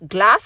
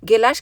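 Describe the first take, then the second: First: The g and l form one cluster. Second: A vowel is heard between g and l.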